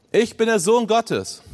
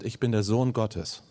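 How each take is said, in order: First: "Ich bin der Sohn Gottes" declared slowly, higher and louder, stress on "Sohn"; proclaimed. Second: Said in the usual way. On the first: Retold or imitated. Preacher voicing Jesus before Caiaphas, slow solemn proclamation. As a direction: proclaim it like a claim that shakes the room. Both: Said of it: "dass Jesus gesagt hat".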